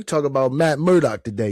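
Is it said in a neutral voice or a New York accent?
New York. It is said in a put-on New York accent.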